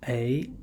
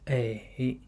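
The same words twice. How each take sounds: First: The pitch rises from middle to high. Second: The pitch dips low, then rises.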